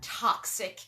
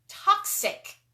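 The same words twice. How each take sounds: First: Said in the usual way. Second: Toxic. hit much higher and louder, falling; stressed toxic. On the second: Shown as a demonstration. Repeating her own word to stress Toxic. sharply. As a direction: punch the word Toxic. high and hard with a falling tune.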